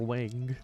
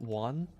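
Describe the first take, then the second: First: The vowel sounds like the one in 'bang'. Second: The vowel sounds like the one in 'fun'. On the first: The speaker calls it wrong. "I feel like it's not pronounced W Wang like you know your" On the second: The speaker calls it right. "They pronounce it one. Yeah, that sounds more right"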